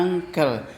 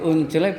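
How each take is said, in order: First: "uncle" pronounced ANG-kel; correct pronunciation. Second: "uncele" as written, oon-che-le; spelling pronunciation. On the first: Teacher repeating the rule for students, uncle said ANG-kel. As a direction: say "uncle" in two clear beats, ang-kel. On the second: Teacher repeating the rule for students, uncle read as spelt. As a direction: sound out every letter of "uncele" the Indonesian way. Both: Shown as a demonstration. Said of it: "uncele bacanya uncle".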